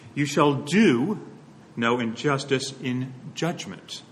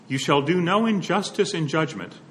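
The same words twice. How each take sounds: First: Some words are read with extra emphasis. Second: It is read plainly, without extra emphasis.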